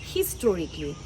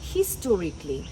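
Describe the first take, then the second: First: The 'al' syllable is dropped before 'ly'. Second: The same.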